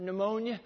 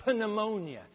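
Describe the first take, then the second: First: Said in the usual way. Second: Pneumonia with a sounded P, puh-new-MOAN-ya. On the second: Shown as a demonstration. Preacher jokes on the spelling, pneumonia with its P sounded. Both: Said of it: "Silent P".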